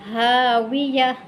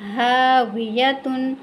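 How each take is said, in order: First: The word ends in a soft silent h. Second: The word ends with a full -tun syllable. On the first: The reader stops at this word. "Stop करना है ... हा साकिना" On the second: The reader continues without stopping. "आगे है हावियतुन"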